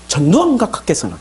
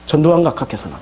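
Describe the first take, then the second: First: It has strong, exaggerated rising and falling intonation. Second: It has smooth, soft, fairly even intonation. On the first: It sounds like a 1980s newsreader. "이렇게 이렇게 하지" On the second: It sounds like present-day Korean. "지금은 이렇게 되죠"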